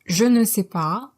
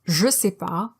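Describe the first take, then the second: First: All four syllables are said in full. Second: The ne is dropped, leaving three syllables.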